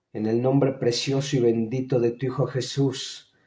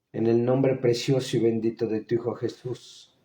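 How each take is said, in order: No difference in how they are said.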